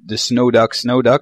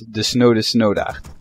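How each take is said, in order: First: The name ends with an English-like hard k sound. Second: The name ends with a throaty Dutch ch sound. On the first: The speaker calls it wrong. "she thought it was the Snowduck Snowduck" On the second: The speaker calls it right. "but it's the Snode Snowdacht"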